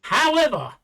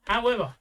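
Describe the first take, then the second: First: Loud, high insistent however; emphatic. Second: Said in the usual way. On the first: Real, not acted. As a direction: cut back in firmly. Insists over interruption.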